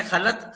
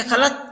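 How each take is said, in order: First: खलत said with the soft dental te, खे लाम ते; खलत ending on a light dental t, with a small laugh; khalat with te. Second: खलत said with the heavy toy, a firmer final t and raised voice; खलत with a thicker, emphatic toy ending; khalat with toy. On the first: Teacher says खलत with the plain te letter. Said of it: "ते से लिखेंगे खलत". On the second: Teacher contrasts खलत spelt with toy, pitched up. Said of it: "ते को हटाकर तोय लगा देंगे खलत". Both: Shown as a demonstration.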